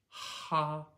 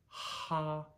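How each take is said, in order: No difference in how they are said.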